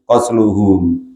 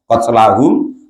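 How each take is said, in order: First: The vowel after 'qatl' is u. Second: The vowel after 'qatl' is a. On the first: The word is read in the nominative case. "dibaca rafa" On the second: The word is read in the accusative case. "dibaca nasab"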